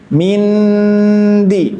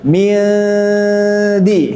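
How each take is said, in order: First: The nasal is a clear, full n sound. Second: The nasal is hidden, tongue held loose before d. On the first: The speaker calls it wrong. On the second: The speaker calls it right.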